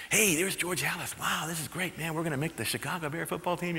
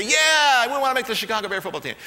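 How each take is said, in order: First: Hushed, eager whisper-talk among rookies; excited rookie murmur. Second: Loud, high eager team shout; eager rookies shouting. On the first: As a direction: murmur it to your teammates in awe. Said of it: "they would be murmuring". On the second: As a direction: shout back like hungry recruits. Rookies answer coach eagerly. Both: Retold or imitated.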